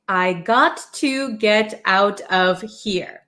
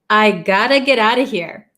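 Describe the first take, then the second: First: Each word is pronounced fully and separately. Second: The words blend into 'gotta' and 'outa'.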